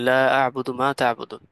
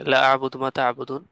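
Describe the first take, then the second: First: The vowel in the first word is held long. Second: The vowel in the first word is cut short. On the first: I do not worship what you worship. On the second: I surely worship what you worship.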